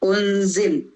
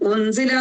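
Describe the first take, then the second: First: The final vowel is dropped, ending on a consonant. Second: The word ends with a short final vowel. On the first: The reader stops at this word. "നിർത്തണമെങ്കിൽ ഉൻസിൽ" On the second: The reading continues without a stop. "ഉൻസില എന്നുള്ളിടത്ത്"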